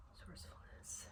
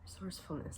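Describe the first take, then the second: First: Breathy whisper to herself; a whispered reminder to herself. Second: Said in the usual way. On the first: Real, not acted. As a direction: murmur the word under your breath. Rereading the pulled cards, whispered.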